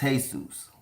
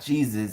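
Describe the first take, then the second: First: The name is said the Spanish way. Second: The name is said the English way. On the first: The speaker calls it right. "You ask any person of Latin descent, it's Jesus" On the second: The speaker calls it wrong. "it is not Jesus"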